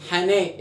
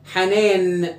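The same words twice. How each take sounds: First: "حنا" left open on the long vowel, no final n; nun removed. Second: "حنان" drawn out onto its last n; final nun sounded. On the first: Teacher shows the word breaks, final nun dropped. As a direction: say "hanaa" with the last n missing. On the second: Teacher tests the word's original nun, final n sounded. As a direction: sound "hanaan" fully, n at the end. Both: Shown as a demonstration. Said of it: "شيل النون".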